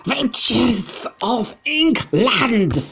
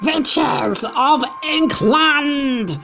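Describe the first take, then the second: First: Very high, loud, drawn-out witch call; witch yell. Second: Very high, loud, slow witch cry; witch shout. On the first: Grand High Witch calling out to her audience again, shrieking. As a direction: screech it across the hall. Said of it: "she yelled". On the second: Grand High Witch hailing her assembled witches, screeching slowly. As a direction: stretch it out like a screeching witch queen. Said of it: "shouted the Grand High Witch". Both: Acted.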